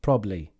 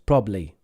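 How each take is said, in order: First: The word is said with two syllables. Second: The word is said with two syllables.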